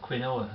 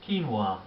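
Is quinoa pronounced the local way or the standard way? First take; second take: local; standard. First: It is pronounced the local Barnsley way. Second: It is pronounced the standard, non-local way.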